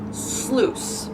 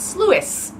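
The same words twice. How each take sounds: First: The i in the word is silent. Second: The i in the word is sounded. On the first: "that's how you actually pronounce that word" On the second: "in my head, it's sluice"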